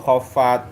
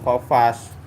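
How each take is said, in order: First: The word ends with a t sound. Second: The word ends with an s sound. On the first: The speaker calls it right. "khofat bukan khofas" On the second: The speaker calls it wrong. "bukan khofas"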